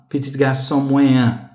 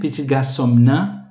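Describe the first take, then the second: First: The pronoun is a full syllable with a nasal vowel. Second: The pronoun is a bare M joined to the word. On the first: "a gente então tem esse E nasal" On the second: "a gente pode reduzir esse moé para só o M"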